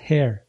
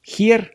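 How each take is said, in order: First: The first sound is a soft, breathy h. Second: The first sound is a harsh, throaty h. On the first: The speaker calls it right. "Она буквально как на выдохе в английском языке идет" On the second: The speaker calls it wrong. "Не hair"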